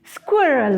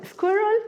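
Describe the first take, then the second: First: "squirrel" with a firm falling tune; "squirrel" said carefully, ending on a fall; confirmed pronunciation. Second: "squirrel" with a high rising question; "squirrel" asked as a pronunciation check. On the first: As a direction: state "squirrel" as a settled answer. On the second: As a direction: check the word "squirrel", pitched up and unsure. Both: Shown as a demonstration. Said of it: "is that a good accent?".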